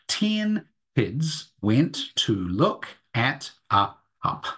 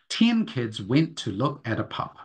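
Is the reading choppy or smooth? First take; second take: choppy; smooth. First: The sentence is read slowly and choppily. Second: The sentence is read smoothly and fluently. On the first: "So as we go" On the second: "I do it again in a much more fluent way"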